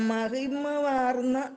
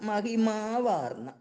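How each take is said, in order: First: The vowel after 'mahim' is short. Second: The vowel after 'mahim' is long. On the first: The speaker calls it wrong. "അത് തെറ്റാണ്" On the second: The speaker calls it right. "എന്നതാണ് ശരി"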